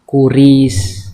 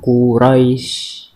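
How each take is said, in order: First: The second syllable has a plain i vowel. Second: The second syllable has an ai diphthong. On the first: "ini harusnya kan kuris" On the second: "di sini bacanya Quraisy"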